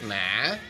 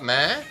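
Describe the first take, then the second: First: It is said with the hỏi tone. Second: It is said with a rising tone. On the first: "Hỏi" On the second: "going up"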